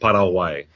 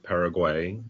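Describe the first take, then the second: First: The name is pronounced the Spanish way. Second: The name is pronounced the American English way. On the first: "learned from other Spanish speakers ... maybe a more authentic pronunciation" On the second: "I grew up pronouncing it Paraguay"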